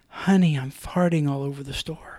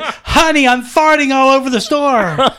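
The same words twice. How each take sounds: First: It is said softly, in a low voice. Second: It is said loudly, almost shouted. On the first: It was meant to be heard only by one person. "I thought I said it to her this way" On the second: Everyone nearby could hear it. "I shouted it"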